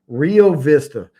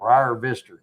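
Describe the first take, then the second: First: The first word sounds like 'ree-oh'. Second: The first word sounds like 'rye-er'. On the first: "I got to say this right" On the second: "they all say around that area they say they call it"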